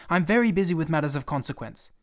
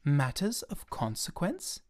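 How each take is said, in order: First: Busy snap. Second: Slow stunned repeat; thunderstruck. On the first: Pilot snaps he is busy. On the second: Little prince stunned by the pilot's answer, slow disbelieving echo. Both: Acted.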